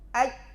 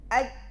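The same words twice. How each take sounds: No difference in how they are said.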